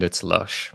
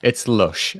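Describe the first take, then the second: First: "it's lush" said softly in an English accent; English way of saying it. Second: Said in the usual way. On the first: Shown as a demonstration. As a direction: give "lush" its English vowel, quietly. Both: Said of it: "As we say in England".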